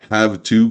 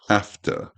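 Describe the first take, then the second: First: It is said in full with a V sound. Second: It is shortened with an F sound.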